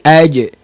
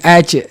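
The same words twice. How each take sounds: First: The j is crisp, with the breath held. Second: The j is soft, with air flowing through. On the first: The speaker calls it right. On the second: The speaker calls it wrong.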